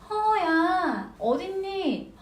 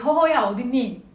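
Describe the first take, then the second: First: It is said in a cute, overly friendly tone. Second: It is said in a plain, blunt tone. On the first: The speaker calls it right. "아주 귀엽게 아주 친절하게 조금은 가식적이게" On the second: The speaker calls it wrong. "허허야 아닙니다"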